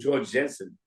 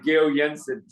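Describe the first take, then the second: First: The name is said with American English sounds. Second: The name is said with Danish sounds. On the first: The speaker calls it wrong. "in New York we called him George Jensen" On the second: The speaker calls it right. "They say mister Chu is not George Jensen, it's Gil Jensen"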